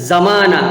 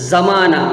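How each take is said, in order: No difference in how they are said.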